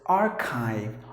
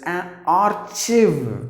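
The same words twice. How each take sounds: First: The second part does not sound like 'chiv'. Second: The second part sounds like 'chiv'. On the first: The speaker calls it right. "So you have to pronounce the word as archive" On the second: The speaker calls it wrong. "pronounce the word as archive, just because there is C H I, chiv"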